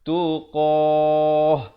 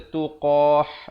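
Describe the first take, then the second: First: The final h is soft and light. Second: The final h is harsh and raspy. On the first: The speaker calls it right. "Yang betulnya tuqah" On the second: The speaker calls it wrong. "Jangan pula kita baca tuqah, itu tak betul"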